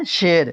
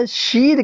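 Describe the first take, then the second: First: شیر said "sher", with an "e" vowel; unstretched ya. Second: شیر said "sheer" with a long "ee"; wrongly stretched ya. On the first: Teacher corrects the mistake, شیر said as "sher". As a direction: keep the ی of شیر an "e", not "ee". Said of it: "تو کیا ہے؟". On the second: Teacher shows the mistaken reading, شیر said as "sheer". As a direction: pull the ی of شیر out to "eee". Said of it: "یہ غلط ہو گیا". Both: Shown as a demonstration.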